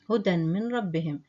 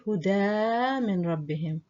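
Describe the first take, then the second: First: The first word ends in a short linked sound. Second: The first word ends in a pronounced long vowel. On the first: The speaker calls it right. "we say" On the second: The speaker calls it wrong. "we don't say"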